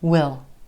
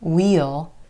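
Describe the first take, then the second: First: It is a contraction with a reduced vowel. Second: It is a contraction with a clear vowel. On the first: "most of the time it's gonna reduce to will" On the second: "can become we'll"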